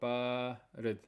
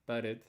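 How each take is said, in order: First: The long vowel is held long. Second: The long vowel is cut short. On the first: The speaker calls it right. "You have to make sure you pronounce the long vowel" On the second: The speaker calls it wrong. "Don't say barid"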